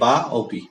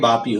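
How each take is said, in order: First: The two words are said as separate words. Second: The two words merge into one word. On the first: "আলাদা আলাদা করলে" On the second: "একসাথে হয়ে বাপি হবে ওটা উচ্চারণ"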